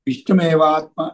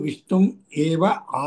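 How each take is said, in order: First: The words are run together as one unit. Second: The words are said separately, one by one. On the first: "అదే చదివేప్పుడు విష్ణు మేవాత్మ అని వస్తుంది కదండి" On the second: "లేదు విష్ణుం ఏవ ఆత్మ"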